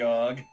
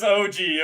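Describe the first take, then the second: First: It is said as one word, og. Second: It is said as two separate letters. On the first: The speaker calls it wrong. "Deliberately saying that wrong" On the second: The speaker calls it right. "I know it's O G"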